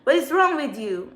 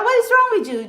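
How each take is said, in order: First: Said in the usual way. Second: Much higher, louder angry cry; exasperated outburst. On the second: Real, not acted. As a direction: throw the question at them in outrage. Ranting at stalkers.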